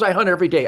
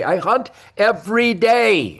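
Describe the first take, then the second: First: Said in the usual way. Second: "every day" slowed right down; emphatic repeat. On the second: Real, not acted. Hunter driving his point home, slow and emphatic on "every day". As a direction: hammer "every day" word by word.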